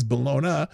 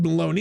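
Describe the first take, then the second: First: "Bologna" as buh-LOH-nuh, not baloney; spelling pronunciation. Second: "bologna" rhymed with "phony"; colloquial pronunciation. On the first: Host showing viewers what is written, "Bologna" ending in "nuh". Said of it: "even though it says Bologna". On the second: Host admitting to viewers how they said it, "bologna" as baloney. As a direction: say "bologna" as baloney, ending in "nee". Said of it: "Now, I said bologna, even though it says Bologna". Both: Shown as a demonstration.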